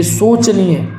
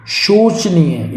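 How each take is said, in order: First: शोचनीय opened with plain s, slowly; wrong sibilant. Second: शोचनीय opened with sh, drawn out; correct sibilant. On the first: Teacher showing the error, शोचनीय starting with s. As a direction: say शोचनीय as "so-chaneey". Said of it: "आपको बिल्कुल सही है". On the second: Teacher giving students शोचनीय with a clear sh. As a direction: say शोचनीय slowly as "sho-chaneey". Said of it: "ये आपको बिल्कुल सही है". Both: Shown as a demonstration.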